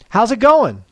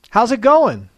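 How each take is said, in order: Both takes have the same delivery.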